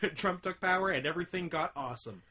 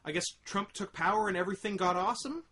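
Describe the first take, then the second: First: The voice falls at the end like a statement. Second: The voice rises at the end like a question.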